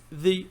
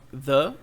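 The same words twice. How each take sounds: First: The vowel is a long 'ee' sound. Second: The vowel is a short, weak 'uh' sound. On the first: It comes before a vowel sound. "the antes de vogais" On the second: It comes before a consonant sound. "the antes de consoantes"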